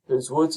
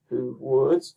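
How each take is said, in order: First: Said in the usual way. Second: "who woods" as an isolated foot, WOODS stressed and rising; iambic stress. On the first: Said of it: "So you have who woods". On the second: Shown as a demonstration. Teacher showing the first iamb, stress on WOODS. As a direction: lean on "woods" after a lighter "who". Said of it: "first syllable, I am".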